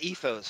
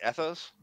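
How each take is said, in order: First: Ethos with the E of "see"; first vowel of ethos long, as in "tea"; long-E pronunciation. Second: Ethos with the E of "bed"; first vowel of ethos short, as in "pet"; short-E pronunciation. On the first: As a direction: say ethos as EE-thohz. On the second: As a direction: say ethos as ETH-ohz, questioning. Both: Shown as a demonstration. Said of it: "What do you say? Ethos?".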